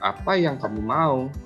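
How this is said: It sounds reproachful, making the listener feel guilty. The listener should feel at fault. "membuat orang lain merasa bersalah, suaranya seperti ini"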